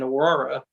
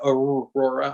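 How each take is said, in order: First: The first R sound is weak. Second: The first R sound is clearly pronounced. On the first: The speaker calls it wrong. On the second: The speaker calls it right.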